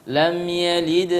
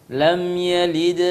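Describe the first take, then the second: No difference in how they are said.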